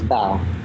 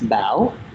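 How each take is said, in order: First: The name is said flat, without a rising tone. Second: The name has a rising, question-like tone. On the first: A simplified form used for English speakers. "when I introduce myself to um, certain people, I say my name is Bao" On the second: The original name as the speaker hears it. "it has that question mark sound, and that's a Vietnamese accent"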